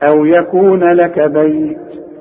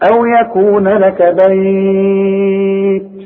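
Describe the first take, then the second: First: The last word's vowel is held for two counts. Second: The last word's vowel is held for four counts. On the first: "حركتين" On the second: "اربعة"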